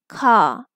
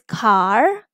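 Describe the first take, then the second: First: The vowel is open with no r sound. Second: The vowel is followed by an r sound. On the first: "this word in British English will be car" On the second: "if you go for American pronunciation of this sound"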